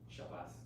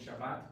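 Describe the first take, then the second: First: The word ends with an s sound. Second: The word ends with a t sound.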